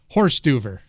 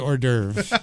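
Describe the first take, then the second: First: It begins with an English 'horse' sound. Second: It begins with a French 'or' sound. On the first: The speaker calls it wrong. "as I like to say, horse-duver" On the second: The speaker calls it right. "It's really hors d'oeuvre. I know the pronunciation"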